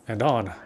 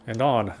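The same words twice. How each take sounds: The two takes are said the same way.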